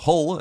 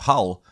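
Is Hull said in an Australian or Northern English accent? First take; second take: Northern English; Australian. First: It is said in a Northern English accent. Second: It is said in an Australian accent.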